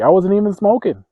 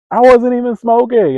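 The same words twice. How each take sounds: First: Loud, high protest of innocence; indignant protest. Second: Very loud, very high wail of injustice; outraged yell. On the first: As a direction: shout your innocence in outrage. Protesting unfair blame, first take. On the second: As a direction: scream your innocence at full outrage. Protest repeated at higher pitch. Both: Retold or imitated.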